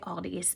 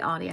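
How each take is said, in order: First: The name ends with an s sound. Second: The name ends without an s sound. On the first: "I say Aldi's" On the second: "I don't say Aldi"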